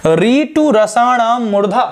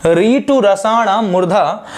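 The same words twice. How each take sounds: First: Slow chant-like reading of the sutra री टू रसाणाम मूर्धा, higher pitch; slow sutra recitation. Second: री टू रसाणाम मूर्धा said again slowly, less raised; slow repeat of the sutra. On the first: Teacher reciting the sutra slowly to the class. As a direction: recite the Sanskrit sutra slowly, each word drawn out. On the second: Teacher repeating the sutra slowly for students. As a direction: repeat the sutra calmly and deliberately. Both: Shown as a demonstration. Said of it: "देखिएगा".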